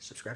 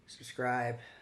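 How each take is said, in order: First: It is said quickly, rushed together. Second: It is said at a normal, relaxed speed.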